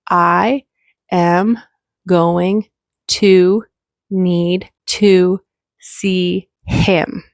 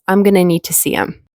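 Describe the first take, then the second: First: Each word is said separately and in full. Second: The words run together, with reduced sounds. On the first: "I will pronounce the sentence word by word" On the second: "So the I am going to turns into I'm gonna... the H disappears"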